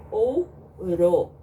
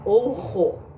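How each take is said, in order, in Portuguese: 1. O r é um som fraco, batido. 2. O r é um som forte, gutural. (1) "O som dele vai ser fraco" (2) "não pode falar ouro"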